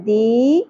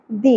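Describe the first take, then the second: First: The vowel is held long, about two beats. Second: The vowel is short, about one beat. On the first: "زیر کو ہم نے ایک الف کے برابر کھینچنا ہے" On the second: "اگر سنگل زیر ہوتی تو ہم کیسے پڑھتے"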